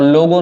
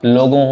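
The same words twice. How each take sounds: First: लोगो with a plain, un-nasal final o; wrong spelling voiced. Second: लोगों with a nasalised final o; correct nasal ending. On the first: Teacher showing the student's misspelling, लोगो without the nasal. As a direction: say लोगो ending in an open oral o. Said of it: "और लोगो नहीं होता". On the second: Teacher giving the correct word, लोगों ending nasal. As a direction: let the last vowel of लोगों go through the nose. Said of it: "लोगों होता है". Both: Shown as a demonstration.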